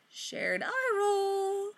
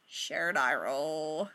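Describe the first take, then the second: First: Slow, high, sing-song sarcasm; sarcastic eye roll. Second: Slow, lower, flat-out deadpan; deadpan eye roll. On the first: Friends mocking Gabe in slow, high sarcasm. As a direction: stretch it out mockingly. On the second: Friends mocking Gabe with a slow deadpan eye roll. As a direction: drag it out, utterly unimpressed. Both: Acted. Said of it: "the others are like".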